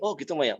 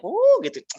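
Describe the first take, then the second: First: Said in the usual way. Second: "Oh, gitu" pitched much higher and louder, mock-attentive; hammed-up "Oh, gitu", high and loud; exaggerated "Oh, gitu". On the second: Shown as a demonstration. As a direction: overplay "Oh, gitu" as if fascinated. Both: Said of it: "dengerin aja, dengerin".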